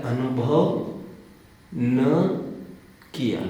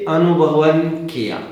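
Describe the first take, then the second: First: Long pauses after "अनुभव" and after "न"; "अनुभव", pause, "न" alone, pause, "किया"; words split apart. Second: "अनुभवन" said as one joined word, then "किया"; words run together. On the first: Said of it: "हाँ, अनुभव नहीं किया इन्होंने". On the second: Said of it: "को आम आदमी ये पढ़ता है". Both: Shown as a demonstration.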